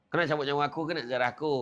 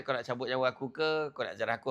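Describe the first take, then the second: First: Rattled off fast, like a routine exchange; quick retelling. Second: Said in the usual way. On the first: Shown as a demonstration. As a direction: fire the question off quickly. (soalan cepat dan bersahaja) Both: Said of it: "Ha, macam tu lah".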